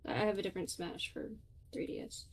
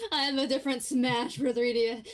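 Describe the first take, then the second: First: Said in the usual way. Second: Louder, higher, mock-dramatic; louder exaggerated repeat. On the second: Shown as a demonstration. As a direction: announce it like big news.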